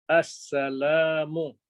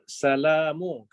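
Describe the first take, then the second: First: The word starts with an 'as' sound. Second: The word starts directly with 'sa'. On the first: The speaker calls it right. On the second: The speaker calls it wrong.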